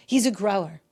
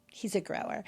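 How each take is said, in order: First: Said in the usual way. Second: "He's a grower." repeated much softer, as a knowing aside; quiet aside. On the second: Real, not acted. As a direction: drop the repeat of "He's a grower." to a sly undertone. Repeats phrase for comic effect.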